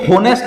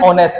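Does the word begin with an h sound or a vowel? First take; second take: h sound; vowel. First: The word begins with an h sound. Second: The word begins directly with a vowel. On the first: The speaker calls it wrong. "ये होनेस्ट नहीं है" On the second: The speaker calls it right. "ऑनेस्ट है"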